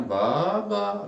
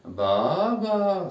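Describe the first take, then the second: First: "Baba" high and louder; teacher modeling a word. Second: "Baba" high, louder, falling; teacher repeating the model; model word again. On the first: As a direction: pronounce "Baba" for repeating. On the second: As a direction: say "Baba" firmly for the class. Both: Shown as a demonstration. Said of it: "Répétez".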